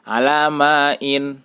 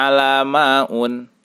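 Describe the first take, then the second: First: "alamain" drawn out slowly, closing on -in; correct tanwin ending. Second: "alamaun" closing on -un; wrong -un ending. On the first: Teacher giving the example without al, "alamain" ending in -in. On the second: Teacher showing the misreading, "alamaun" ending in -un. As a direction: end "alamaun" with u and n instead of -in. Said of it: "tidak dibaca". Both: Shown as a demonstration.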